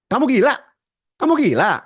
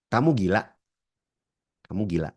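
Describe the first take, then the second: First: Shouted, much higher and louder; angry shout. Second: Said in the usual way. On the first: Shown as a demonstration. Trainer demos the insult shouted at the class. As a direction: yell it like an accusation. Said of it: "Itu beda-beda persepsinya". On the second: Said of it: "Jadi gini misalnya".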